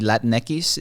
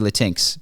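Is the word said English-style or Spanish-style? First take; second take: Spanish-style; English-style. First: The word is pronounced with Spanish-style sounds. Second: The word is pronounced as English spelling suggests. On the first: It respects people who speak Spanish. "in deference to people who actually speak Spanish" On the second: It follows how the word looks written. "because that's what it looks like"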